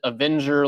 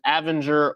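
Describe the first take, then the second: First: It is said like the word 'avenger'. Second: It is said unlike the word 'avenger'. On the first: "you pronounce it Avenger like the superheroes" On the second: "whether it's Avenger"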